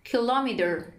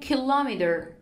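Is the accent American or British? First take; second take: American; American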